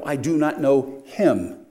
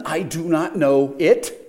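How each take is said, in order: First: Slow, deliberate weight on "him"; stress on HIM. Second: End-stress on "it", slow and loud. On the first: Preacher corrects the variant reading of Peter's denial, stress on HIM. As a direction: land firmly on "him" as the correction. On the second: Preacher tests the variant reading on Peter's denial, stress on IT. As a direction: lean on "it" as the wrong word. Contrasts misreading "it" with "him. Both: Acted.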